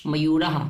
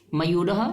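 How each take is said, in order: First: "मयूरः" with a long final aa, then an echoed ha; plural ending. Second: "मयूरः" with a short final a and light h; singular ending. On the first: Teacher drilling the plural of peacock, "मयूरः" with long final aa. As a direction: say "मयूरः" as mayuraa-ha, last vowel held. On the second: Teacher drilling the singular of peacock, "मयूरः" with short final a. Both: Shown as a demonstration. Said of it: "उसी तरह से सभी शब्दों".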